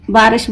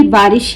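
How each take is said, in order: First: बारिश with रिश flattened to "rash"; mispronunciation demo. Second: बारिश with a short i in रिश; correct pronunciation. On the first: Teacher showing what not to say, बारिश ending in "rash". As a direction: say बारिश as "baarash", losing the short i. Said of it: "बोल के तो नहीं होगा". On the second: Teacher giving the form to memorise, बारिश with a clear short i. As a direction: say बारिश ending in "rish", not "rash". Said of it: "ये बारिश ही होगा". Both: Shown as a demonstration.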